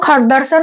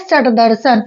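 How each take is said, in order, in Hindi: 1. पहला शब्द 'kh' ध्वनि से शुरू होता है। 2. पहला शब्द 'sh' ध्वनि से शुरू होता है। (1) "इसको अगर संस्कृत में पढ़ेंगे तो खट दर्शन हो जाएगा" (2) "लेकिन क्या है?"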